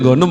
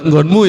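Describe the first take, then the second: First: It ends in the dialect suffix -em. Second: It ends in the standard suffix -mu.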